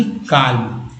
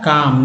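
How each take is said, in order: First: काल्म with the L pronounced; L sounded. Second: काम with no L sound; L left silent in काम. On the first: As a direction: put an audible L before the M in काल्म. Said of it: "ना कि काल्म". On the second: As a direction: say काम with a long open vowel straight into M. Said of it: "इसका उच्चारण होता है काम". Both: Shown as a demonstration.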